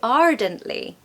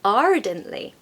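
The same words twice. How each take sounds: First: The R after the first vowel is pronounced. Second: The same.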